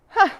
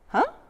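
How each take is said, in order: First: The 'huh' sounds doubtful and judging. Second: The 'huh' sounds puzzled and confused. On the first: The speaker doubts and judges something. "a really skeptical and judgy huh" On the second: The speaker does not understand something. "a really confused huh"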